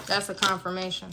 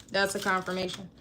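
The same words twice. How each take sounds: The two takes are said the same way.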